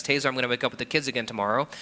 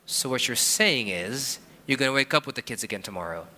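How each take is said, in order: First: Brisk, hurried wife voice; wife's quick offer. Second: Skeptical husband. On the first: Wife quickly offering to take the morning again. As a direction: rattle it off like an eager wife. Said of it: "she goes to me and says". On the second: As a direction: drag it out, checking she means it. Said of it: "And I go". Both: Retold or imitated.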